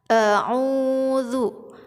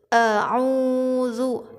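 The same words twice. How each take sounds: Both takes have the same delivery.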